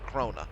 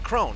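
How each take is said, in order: First: The name is said the German way. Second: The name is said the anglicized way. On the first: "I watched the German version of it as well. They pronounced it Krona" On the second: "they pronounced it Crone"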